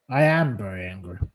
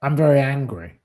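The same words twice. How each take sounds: First: Lower, fast, muttered repeat; real anger, muttered to yourself; angry mutter. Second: Firm, heated statement; real anger, said straight; very angry. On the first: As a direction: grumble it again under your breath. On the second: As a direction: state your anger flatly and firmly. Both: Real, not acted.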